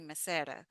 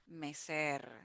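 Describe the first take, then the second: First: The final r is a single short tap. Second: The final r is a long rolled trill. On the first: The speaker calls it wrong. "even though we have one R, we don't say" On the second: The speaker calls it right. "We say mecer with a double R sound"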